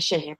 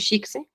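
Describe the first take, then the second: First: It is said with a 'sh' sound. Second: It is said as it is spelled. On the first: The speaker calls it right. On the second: The speaker calls it wrong.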